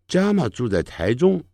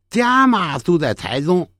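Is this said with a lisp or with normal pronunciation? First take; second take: normal; lisp. First: The sibilant sounds are pronounced normally. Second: The sibilants become lisped, th-like sounds. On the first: "那正常的讲话是这么说" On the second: "可是他是这么讲话的"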